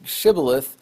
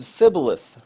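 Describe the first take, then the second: First: The word begins with a sh sound. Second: The word begins with an s sound. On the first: The speaker is from Gilead. "the people in Gilead pronounced the word Shibboleth" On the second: The speaker is from Ephraim. "the people in Ephraim pronounced the word Sibboleth"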